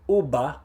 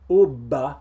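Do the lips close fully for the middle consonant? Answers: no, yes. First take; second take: yes; yes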